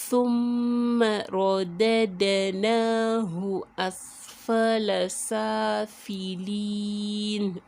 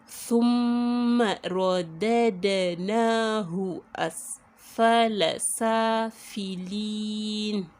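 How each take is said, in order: No difference in how they are said.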